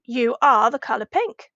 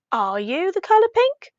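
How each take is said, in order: First: "You are the color pink" stated as a fact; "You are the color pink" in a telling tone; statement intonation. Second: "Are you the color pink" climbing high on "pink"; "Are you the color pink" with a clear asking rise; question intonation. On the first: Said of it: "if the question marks weren't there". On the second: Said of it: "if we ask a question saying". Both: Shown as a demonstration.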